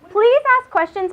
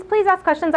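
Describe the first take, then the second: First: Eager plea. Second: Said in the usual way. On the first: Real, not acted. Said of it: "urging the audience to ask". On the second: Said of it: "repeat of the plea".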